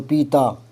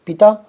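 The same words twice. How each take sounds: First: पीता with a drawn-out pee; long vowel. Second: पिता with a brief pi; short vowel. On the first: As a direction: stretch the ī in पीता. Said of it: "यहाँ थोड़ा time ज़्यादा लगेगा". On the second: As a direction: move straight on to ता in पिता. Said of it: "यहाँ time नहीं लगेगा". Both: Shown as a demonstration.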